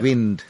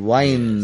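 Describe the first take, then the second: First: The vowel is short, as in 'in'. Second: The vowel is long, as in 'eye'. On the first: It names moving air. "Most commonly we use wind as a noun" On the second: It means turning something, like a clock. "we use W-I-N-D as a verb also. There we pronounce it as wind"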